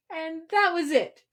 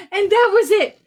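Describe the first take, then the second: First: Said in the usual way. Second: Laughing. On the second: Real, not acted. Rereading the climax, amused.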